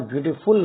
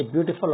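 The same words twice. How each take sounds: First: ब्यूटीफुल with a full rounded "fool" at the end; wrong pronunciation. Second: ब्यूटीफुल with a short, weak "fəl" at the end; correct pronunciation. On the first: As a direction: say ब्यूटीफुल ending in a clear "ful" like "fool". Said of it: "इसका सही उच्चारण ब्यूटीफुल नहीं होता". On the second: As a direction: say ब्यूटीफुल ending in an unstressed "fəl". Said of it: "teachers भी इसका उच्चारण गलत करते हैं". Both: Shown as a demonstration.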